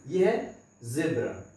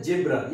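First: ज़ेब्रा with a clear buzzing z, slow; correct z sound. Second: जेब्रा with a hard j like jet; wrong j sound. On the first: Teacher correcting the mistake, slow buzzing z. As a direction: correct ज़ेब्रा, z not j, slowly. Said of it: "ये जेब्रा नहीं है". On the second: Teacher mimicking the usual mistake, hard j. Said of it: "लोग इसको बोलते हैं जेब्रा". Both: Shown as a demonstration.

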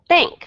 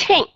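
First: "Think" said loud with a hard aspirated th; puffed think. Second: "think" said with no breath puff; soft th in "think". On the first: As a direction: blow air on "Think". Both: Shown as a demonstration. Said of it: "các bạn nhận được không".

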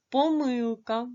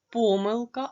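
First: "помилка" stressed on the middle syllable "ми"; second-syllable stress. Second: "помилка" stressed on the first syllable "по". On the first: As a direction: lean on "ми" in "помилка", slowly. ("помилка" з наголосом на другий склад "ми") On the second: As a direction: stretch and punch "по" in "помилка". ("помилка" з наголосом на перший склад "по") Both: Shown as a demonstration. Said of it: "може мати два наголоси".

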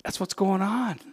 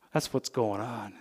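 First: Said in the usual way. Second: Canadian vowel in "on", said softly; Canadian accent. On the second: Real, not acted. Pastor catches his own Canadian accent on "going on". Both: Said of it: "there's my Canadian accent".

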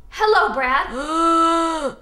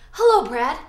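First: Slow groaning zombie hello; Hello, Brad stretched into a slow zombie groan; zombie greeting. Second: Said in the usual way. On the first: Shown as a demonstration. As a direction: drag out a moaning hello. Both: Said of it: "Say it".

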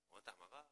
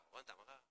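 The two takes are said the same way.

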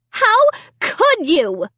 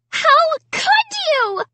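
First: High, slow, hurt demand; slow accusation. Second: Very high, slow scream. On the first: Sarah repeating the accusation, high and slow. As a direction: drag out the accusation. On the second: Sarah screaming at Amy, very high slow scream. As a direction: scream it at her sister. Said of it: "Sarah screamed". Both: A narrator's reading.

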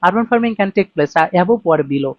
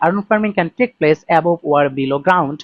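First: Slow reading with above leaned on; stress on above. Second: Very slow, word by word reading; slow read-aloud. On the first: Teacher shows students the key word above, stressed and slow. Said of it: "above or below এই শব্দটাই". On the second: Teacher reads the IELTS sentence aloud to students, very slowly. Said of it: "আমি যদি এই সেন্টেন্সটাকে একটু পড়ি". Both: Shown as a demonstration.

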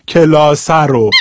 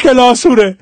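First: Said in the usual way. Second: Shirazi کلاسوره, u then re at the end; Shirazi accent. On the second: Shown as a demonstration. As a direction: turn the ending Shirazi in کلاسوره. (کلاسوره با لهجهٔ شیرازی) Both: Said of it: "حال شیرازیش پیش کلاسوره".

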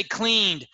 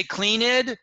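First: Said in the usual way. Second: "cleaned" said as two syllables, clean-ed; learner's error, "cleaned" as CLEAN-id; mispronounced past tense. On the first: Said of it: "you don't say cleaned". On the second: Shown as a demonstration. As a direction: sound the ED in "cleaned" as an extra syllable. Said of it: "make a pronunciation mistake".

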